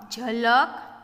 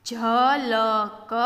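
First: Said in the usual way. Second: Slow, letter-by-letter reading; sounded out. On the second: Shown as a demonstration. Teacher showing beginners the letters, sounded out. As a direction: stretch ઝલક out as jha-la-ka.

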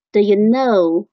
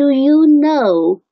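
First: "do" reduced to "duh" in "do you know"; weak form of do. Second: Full "do you know", raised and loud; strong form. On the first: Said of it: "应该变成了的". (do弱读成“的”) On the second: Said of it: "这个本来是这u do，do，do". (强读do you know，元音读足) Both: Shown as a demonstration.

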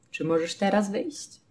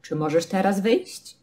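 First: Quieter calm question, teraz mid-sentence; Czy możesz teraz wyjść, soft and even; soft neutral repeat. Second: Said in the usual way. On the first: Shown as a demonstration. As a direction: ask it gently with no emphasis. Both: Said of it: "ale tak normalnie".

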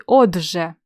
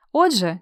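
First: "отже" stretched, consonant before ж held; drawn-out consonant. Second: Said in the usual way. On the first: Shown as a demonstration. Teacher offering a second spelling to choose, "отже" drawn out. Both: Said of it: "як пишеться".

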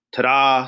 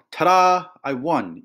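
First: Lightly sung-out little reveal; mild singsong flourish. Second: Moderately shouted victory, starting high; triumphant shout. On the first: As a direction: sing it out a touch, as a cat's reveal. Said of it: "sang Odds". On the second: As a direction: shout the reveal like a winning boy. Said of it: "Ethan shouted". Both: A narrator's reading.

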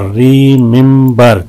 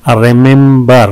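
First: "रिमेंबर" slowly, in three beats; syllable breakdown. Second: Said in the usual way. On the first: Shown as a demonstration. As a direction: lengthen each syllable of "रिमेंबर". ("रिमेंबर" तीन हिस्सों में धीरे) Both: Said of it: "तीन है इसमें".

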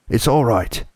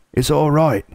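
First: Higher, eager all clear; excited reassurance. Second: High, excited shout of relief. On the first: Beaver calling the family out of the cave, eager and lighter. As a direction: reassure them it's safe. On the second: Beaver shouting to the hidden children, high and joyful. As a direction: call out the good news to the cave. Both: A narrator's reading. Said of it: "he was shouting".

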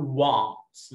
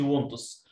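First: "wants" with an open American a, like wahnts. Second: "wants" with a flat a, the mistaken way; the wrong "wants" to avoid. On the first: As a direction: open your mouth wide on "wants". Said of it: "لو امريكان بقول". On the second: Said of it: "ما اقولش". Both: Shown as a demonstration.

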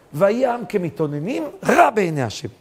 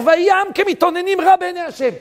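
First: Said in the usual way. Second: High, loud chanted verse; preaching verse. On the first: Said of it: "same verse, now plain". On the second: Acted. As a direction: proclaim the verse at full force. Quotes the verse at full force. (הכרזת פסוק בקול רם וגבוה)

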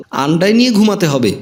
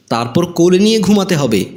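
First: Lightly mocking echo of a demand; mocking mimicry. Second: Said in the usual way. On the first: A narrator's reading. Bride throws her groom's demand back at him, lightly mocking. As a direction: parrot it back with mild mockery. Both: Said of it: "নববধূ স্বর করে বলল".

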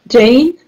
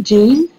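First: "Jane" said as zhane, with a rising question; "Jane?" asked as zhane, trying the other reading; saying the name Jane. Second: "Jean" said as zheen, with a rising question; "Jean?" asked as zheen, checking the name; saying the name Jean. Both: Shown as a demonstration. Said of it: "Is it Jean, your, your nickname?".

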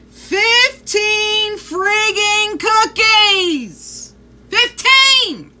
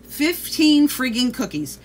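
First: Slow, loud and higher, each word hammered; outraged shout. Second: Said in the usual way. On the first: Real, not acted. Telling viewers the dog ate fifteen cookies, outraged shout. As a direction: yell it out in disbelief.

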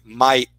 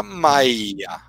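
First: Maia said as spelled, one short i, ai as in "pai"; Maia as written. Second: Maia drawn out slowly, the i stretched and doubled: Mai-ia; Maia with two Is. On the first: Lecturer showing students the spelled form of Maia. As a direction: read Maia straight off the page, one i. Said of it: "ou a gente fala Maia?". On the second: Lecturer showing students how Maia is actually spoken, slowly. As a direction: say Maia the way people really speak it, two Is. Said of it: "você não tem só um I, você tem dois Is". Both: Shown as a demonstration.

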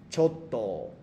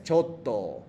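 First: "Choto" said slowly and clearly, falling at the end, for the class to repeat; clear model pronunciation. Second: "choto" said again clearly with a falling end; repeated model pronunciation. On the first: Teacher models "Choto" for the students to repeat, clear falling tune. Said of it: "vamos a practicar las pronunciaciones de choto". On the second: Teacher repeats "choto" after the student's try, clear falling tune. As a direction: model "choto" once more, clean and falling. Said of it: "Ah, otra vez". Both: Shown as a demonstration.

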